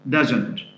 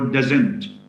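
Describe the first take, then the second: First: The stress is on the first syllable. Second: The stress is on the second syllable. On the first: The speaker calls it right. "stress should fall on the first syllable" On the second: The speaker calls it wrong. "So it's not didn't or doesn't"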